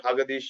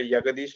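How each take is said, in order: First: The name begins with an H sound. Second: The name begins with a Y sound. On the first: "or Hagadish like like Spanish" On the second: "not a Yagadish like like German"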